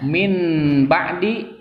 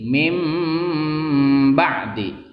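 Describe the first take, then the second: First: An n sound comes before the b. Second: An m sound comes before the b. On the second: "menjadi mim ba'di"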